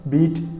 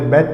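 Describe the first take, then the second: First: The vowel is long, like in beat. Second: The vowel is short, like in bet. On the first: The speaker calls it right. "experts say it is beat" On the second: The speaker calls it wrong. "Some people call it a bet also"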